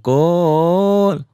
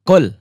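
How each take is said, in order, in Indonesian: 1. Kata itu diucapkan dengan cara yang berlebihan. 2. Kata itu diucapkan dengan biasa dan jelas. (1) "jangan jangan lebay, jangan qul" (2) "ya jelas gitu"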